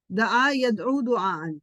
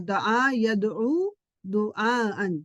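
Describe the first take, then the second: First: Said in the usual way. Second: Slow teacher's recital of دعا یدعو دعاءً; slow drill recitation. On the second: Shown as a demonstration. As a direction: say دعا یدعو دعاءً slowly, each word drawn out. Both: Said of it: "یہ آپ کو پتا ہونا چاہیے".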